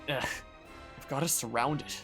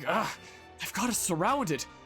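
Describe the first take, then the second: First: It sounds calm and unbothered by the danger. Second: It sounds alarmed and upset about the danger. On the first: The danger does not seem to matter. The speaker calls it wrong. "It really didn't sound too off-put by that" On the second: The danger is taken seriously. The speaker calls it right. "instead of being like"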